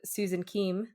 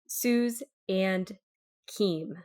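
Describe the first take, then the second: First: The words are run together quickly. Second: The words are said slowly and separately. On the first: "me just running them all together" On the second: "say it a little bit slower"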